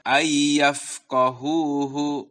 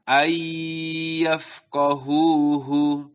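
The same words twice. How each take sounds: First: Merged y in ayyafqahuhu passed over quickly; wrong reading without holding the gunnah; unheld ayyafqahuhu. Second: Slow recitation with gunnah held; held ayyafqahuhu. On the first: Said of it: "Jadi bukan dibaca". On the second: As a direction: linger on the nasal y in ayyafqahuhu. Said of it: "tapi ada sedikit tertahan". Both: Shown as a demonstration.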